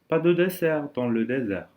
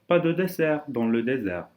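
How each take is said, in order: No difference in how they are said.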